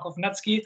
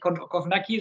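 First: The middle consonant is said as ts. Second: The middle consonant is said as a plain k. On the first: The speaker calls it right. "sondern Kovnatski" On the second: The speaker calls it wrong. "Nicht Kovnacki"

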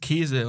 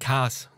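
First: It is said in standard German with a long vowel. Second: It is said in a regional dialect, shortened.

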